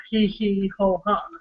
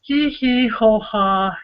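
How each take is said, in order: First: Softer echo of hee hee ho ha; softer recited laugh. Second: Slow spelled-out hee hee ho ha; drawn-out chanted chuckle; slow recited laugh. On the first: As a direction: quieter repeat of the chuckle. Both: Acted. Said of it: "And it starts off as".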